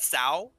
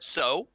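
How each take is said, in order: First: The word rhymes with 'cow'. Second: The word rhymes with 'go'. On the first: This is how some other players say it. The speaker calls it wrong. "Some people call it Sao" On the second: This is the group's own pronunciation. The speaker calls it right. "we call it So"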